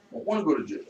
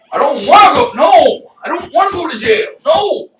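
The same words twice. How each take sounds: First: Said in the usual way. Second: High, loud wailed refusal; panicked protest. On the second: Retold or imitated. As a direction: shout it in hammed-up protest. Acted refusal to the cops.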